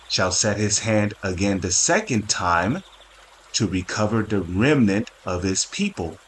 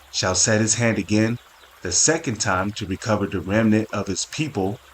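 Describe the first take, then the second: First: It is read slowly and deliberately. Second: It is read at a normal pace.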